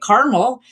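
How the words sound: It is said the way Western speakers say it. "caramel in the West"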